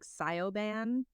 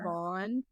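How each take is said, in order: First: The name is said as it is spelled. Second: The name is said the spoken Irish way. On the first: The speaker calls it wrong. "when I read it, I'm like" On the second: The speaker calls it right. "The written is different from the oral kind of thing"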